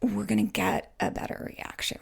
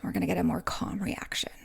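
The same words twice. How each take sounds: First: Said in the usual way. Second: Hushed, calm whisper; soft whisper to show a calm tone. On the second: Shown as a demonstration. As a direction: say it gently and calmly, almost whispering. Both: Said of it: "in a non-irritated tone".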